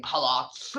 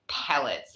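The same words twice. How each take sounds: First: "palots" with an overdone vowel in the last syllable; exaggerated mispronunciation. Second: Said in the usual way. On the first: Shown as a demonstration. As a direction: overdo the end of "palots" as a mock accent. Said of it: "I'm not saying palots". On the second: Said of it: "the way I said palette".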